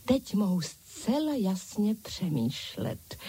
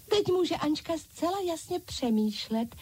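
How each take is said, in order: First: Said in the usual way. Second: High eager chorus of dolls; dolls calling out. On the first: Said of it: "chválila si Ančka". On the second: A narrator's reading. Dolls echoing Ančka, high eager chorus. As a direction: echo her, higher, as the doll crowd. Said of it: "zvolali ostatní panenky".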